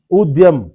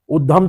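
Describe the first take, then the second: First: उद्यम said as "ud-yam", Y clearly sounded; half D, full Y. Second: उद्यम said as "uddham", with no Y; wrong DH sound. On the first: Teacher showing half da and full ya, उद्यम as "ud-yam". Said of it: "आधा दा". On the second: Teacher rejecting a non-word, उद्यम said as "uddham". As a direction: drop the Y from उद्यम, making it "uddham". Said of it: "कोई शब्द ही नहीं होता है". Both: Shown as a demonstration.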